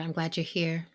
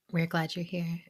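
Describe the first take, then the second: First: You're given the weight; stress on you're. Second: We're given the weight, the rest light; stress on we're. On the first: Host welcoming the guest, stress on you're. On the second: Host correcting to include co-hosts, stress on we're. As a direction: lean on we're, the whole team welcomes her. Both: Shown as a demonstration.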